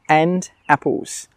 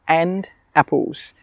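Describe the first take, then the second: The two takes are said the same way.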